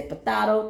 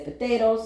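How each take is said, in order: First: "potato" said "po-TAH-to"; potato the playful way. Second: "potato" said "po-TAY-to"; potato the usual way. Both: Shown as a demonstration. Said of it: "some people say potato".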